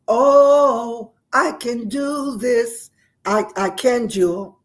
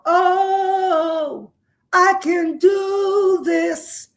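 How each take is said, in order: First: Loud, drawn-out rallying cry; a half-done bellow of a war cry, then easing off. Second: Sung, high, loud, very slow belted cry; sung, belt it out like a war cry; a loud sung rallying cry, stretched long; sung bellow. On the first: Retold or imitated. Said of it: "I began to just bellow out". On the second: Shown as a demonstration. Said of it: "And we did it loud".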